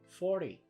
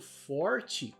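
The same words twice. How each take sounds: First: The word is said in a reduced fast-speech form. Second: The word is said in its careful full form.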